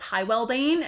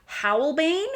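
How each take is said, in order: First: The name is said as Hywelbane. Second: The name is said as Howlbane. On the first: The speaker calls it wrong. "I called this Hywelbane" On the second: The speaker calls it right. "until I heard it pronounced correctly"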